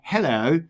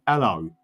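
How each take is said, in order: First: The h sound at the start is pronounced. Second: The h sound at the start is dropped. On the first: "we don't say hello" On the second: "we basically drop our H's"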